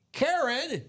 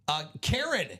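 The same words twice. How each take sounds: First: Calling out. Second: Said in the usual way. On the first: Real, not acted. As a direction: announce the winner's name.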